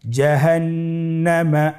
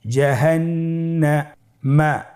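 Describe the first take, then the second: First: Said in the usual way. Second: জাহান্নামা said slowly, doubled ন held; slow careful reading. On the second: Shown as a demonstration. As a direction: draw out জাহান্নামা. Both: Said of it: "আমার সাথে বলুন".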